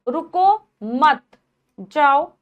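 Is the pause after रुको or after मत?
after मत. There is a pause after मत.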